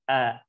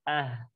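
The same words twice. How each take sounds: First: The vowel ends cleanly without any h. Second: The vowel ends with an added breathy h. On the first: The speaker calls it right. "tapi ah, seperti itu" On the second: The speaker calls it wrong. "Jangan sampai ah"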